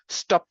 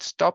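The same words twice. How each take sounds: First: The final p is aspirated. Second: The final p is unreleased. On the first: The speaker calls it wrong. "I cannot have the pronunciation stop, stop. That doesn't really exist in English" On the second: The speaker calls it right. "that can be pronounced with the unreleased P"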